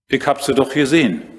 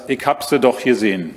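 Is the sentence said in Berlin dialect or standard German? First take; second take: standard German; Berlin dialect. First: It is said in standard German pronunciation. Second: It is said in a Berlin dialect pronunciation. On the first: "ein bisschen Hochdeutsch kann ich auch" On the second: "Natürlich in Berliner Mundart"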